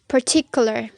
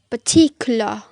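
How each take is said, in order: First: The final r sound is clearly pronounced. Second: The final r sound is left out. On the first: "in rhotic accent, the word particular is pronounced like" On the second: "in the non-rhotic accent, it is pronounced"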